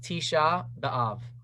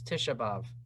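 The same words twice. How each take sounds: First: It is said carefully with every syllable kept. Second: It is said quickly with the first word shortened. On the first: "the perfect, correct Hebrew pronunciation" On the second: "when you say it faster"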